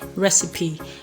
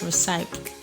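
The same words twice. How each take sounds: First: The final e is pronounced. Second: The final e is silent. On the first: The speaker calls it right. "so you rather say recipe" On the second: The speaker calls it wrong. "I have heard people pronounce this word as recipe"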